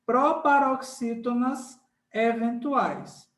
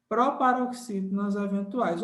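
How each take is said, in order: First: "proparoxítonas eventuais" spelled out slowly; teacher dictates the term. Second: Said in the usual way. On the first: Shown as a demonstration.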